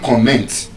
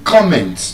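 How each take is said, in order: First: The stress is on the second syllable. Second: The stress is on the first syllable. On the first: The speaker calls it wrong. "You don't comment" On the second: The speaker calls it right. "You comment on something"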